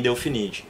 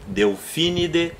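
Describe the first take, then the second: First: "Delphinide" with the stress on NI; wrong paroxytone stress. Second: "Delphinidae" with the stress on PHI; correct Latin stress. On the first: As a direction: say "Delphinide" as del-fi-NI-de. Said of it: "eu não falo em latim". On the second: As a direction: say "Delphinidae" carefully as del-FI-ni-de. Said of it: "Eu falo". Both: Shown as a demonstration.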